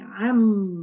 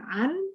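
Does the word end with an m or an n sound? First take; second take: m; n. First: The word ends with an m sound. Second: The word ends with a clear n sound. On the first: The speaker calls it right. "tapi am, langsung masuk ke mim" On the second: The speaker calls it wrong. "bacanya bukan an"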